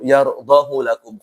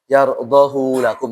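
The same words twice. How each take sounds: First: The final vowel of yardahu is kept short. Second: The final vowel of yardahu is held long. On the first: "ini dipendekkan" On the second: "Kenapa dibaca panjang? Seharusnya apa dibaca"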